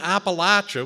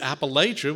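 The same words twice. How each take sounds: First: It is the southern pronunciation of the word. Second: It is the northern pronunciation of the word. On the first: This is how people from the South say it. "which is definitely south" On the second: This is how people from further north say it. "which is kind of from Pennsylvania on"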